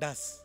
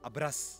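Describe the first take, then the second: First: The word begins with a plain 'd' sound. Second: The word begins with a 'br' cluster. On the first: This is how Tibetans and Ladakhis say it. "Tibetans और लद्दाखी बोलते हैं डस" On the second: This is how our own community says it. "चावल को हम बोलते हैं अब्रस"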